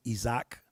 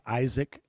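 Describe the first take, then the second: First: "Isaac" said ee-ZAK; "Isaac" pronounced ee-zak, not EYE-zik; native pronunciation. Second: "Isaac" said the English way, EYE-zik; "Isaac" starting with a long EYE; English spelling pronunciation. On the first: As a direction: say "Isaac" with an opening EE and a full "zak". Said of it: "would be pronounced". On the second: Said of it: "it looks like Isaac". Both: Shown as a demonstration.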